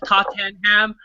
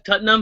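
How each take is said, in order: First: Every syllable of the name is pronounced fully. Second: The name is said in a shortened form. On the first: The speaker does not follow the sport. The speaker calls it wrong. "if you look at it you you you pronounce it as Tottenham" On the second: The speaker follows the sport. The speaker calls it right. "if you actually follow soccer you, you pronounce it different"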